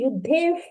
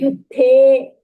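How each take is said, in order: First: The word ends with an added f sound. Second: The word ends cleanly on a plain vowel. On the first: The speaker calls it wrong. "You are reciting Yuddhef. No, no fa sound" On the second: The speaker calls it right. "There is no visarga"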